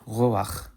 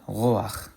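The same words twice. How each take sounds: First: It ends in a guttural ch sound. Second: It ends in a guttural ch sound.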